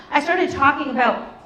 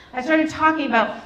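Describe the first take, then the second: No difference in how they are said.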